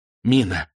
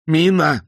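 First: Mild cry. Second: High, loud terrified shriek; panicked scream. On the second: Terrified passenger screaming at the pilots about the bomb. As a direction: scream it at the top of the voice. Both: A narrator's reading. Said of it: "закричал Айсман".

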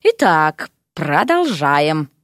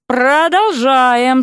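First: Low, slow, stretched words; drawn-out lecturer's low drone; drawled resumption. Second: ПРОДОЛЖАЕМ high and very drawn out; "Продолжаем" insisted with raised pitch and force; emphatic insistence. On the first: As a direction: drawl it out to restore order. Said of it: "Преподаватель истории протянул". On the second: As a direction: press hard on "Продолжаем", stretching it. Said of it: "с нажимом повторил преподаватель". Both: A narrator's reading.

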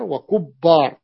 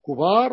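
First: وكبار said wa-kubbaar with held b; doubled middle consonant. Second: كبار said kubaar with one b; light middle consonant. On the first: Teacher repeating the example for students, وكبار with a doubled ب. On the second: Teacher repeating the example for students, كبار with a single ب. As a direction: leave the ب undoubled in كبار. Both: Shown as a demonstration. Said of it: "وكبار بالتشديد أو التخفيف".

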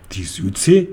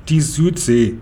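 First: Low start, rising incredulous question; astonished. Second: Said in the usual way. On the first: A narrator's reading. Horse questions Konrad's answer, mildly astonished. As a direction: echo it in mild astonishment. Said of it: "fragte das Pferd erstaunt". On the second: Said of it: "sagte Konrad".

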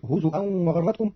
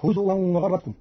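First: هزوا said "huzu'an", with glottal stop; hamza for waw. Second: Said in the usual way. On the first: Shown as a demonstration. Teacher showing Qalun's reading, هزوا said "huzu'an". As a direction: break هزوا with a hamza instead of w. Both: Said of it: "بالهمز بدل الواو".

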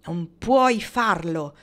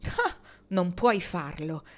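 First: Slow, much louder angry repeat. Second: Slow repeat. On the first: Dwight angrily repeating what his father told him, loud and slow. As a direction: spit the words back, slow and loud. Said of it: "ripeté con rabbia". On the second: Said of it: "ripeté lui". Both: A narrator's reading.

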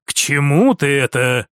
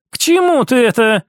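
First: Low, guarded question; brother's reserved male voice; lightly voiced prince. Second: Higher, livelier question; woman's character voice; lightly voiced sister. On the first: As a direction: ask it low and wary. Prince questions sister's point. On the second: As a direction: throw the question out on a lifted pitch. Sister echoes his question.

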